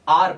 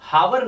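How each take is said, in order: First: The word starts with a vowel sound. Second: The word starts with an h sound. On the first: The speaker calls it right. "इसे आर पढ़ा जाता है" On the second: The speaker calls it wrong. "इसे भी हावर नहीं"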